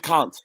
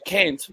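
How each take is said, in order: First: It is said with a New Zealand accent. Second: It is said with an American accent.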